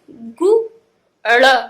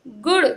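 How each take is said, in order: First: "गु", pause, "ड़", each on its own; broken into sounds. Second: "गुड़" blended into one short word; joined up. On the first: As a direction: loudly sound out "गु" and "ड़" separately. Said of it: "तोड़ तोड़ के पढ़ना". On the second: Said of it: "एक साथ में मिला के पढ़ें". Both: Shown as a demonstration.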